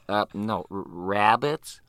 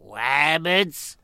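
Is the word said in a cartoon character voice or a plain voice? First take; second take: plain voice; cartoon voice. First: It is said in an ordinary, plain voice. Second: It is said in a put-on cartoon voice. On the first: The word is being corrected. "the director comes in, he goes" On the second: The speaker stubbornly keeps his own pronunciation. "he does his usual"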